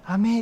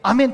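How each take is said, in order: First: It is said softly, without force. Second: It is said loudly and forcefully.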